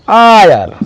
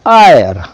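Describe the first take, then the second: First: The word begins with a vowel sound. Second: The word begins with a vowel sound.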